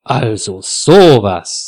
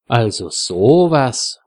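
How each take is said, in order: First: Slow, louder indignation; indignant. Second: Slow, mildly surprised reaction; wondering. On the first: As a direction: draw it out, scandalised, leaning on SOWAS. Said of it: "sagt Frieda entrüstet". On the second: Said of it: "wundert sich Frieda". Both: A narrator's reading.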